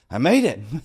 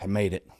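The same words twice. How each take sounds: First: It is said with lively, excited energy. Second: It is said flatly, without much excitement. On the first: The whole journey felt amazing. "oh man, whoo, ... It's different, right? Same words, but it's different" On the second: Merely getting through was enough. "I was kind of like, oh"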